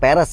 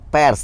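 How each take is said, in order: First: An extra vowel sits between p and r. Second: P and r are joined with no vowel between. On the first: The speaker calls it wrong. "bukan peres ya" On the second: The speaker calls it right. "pers ya"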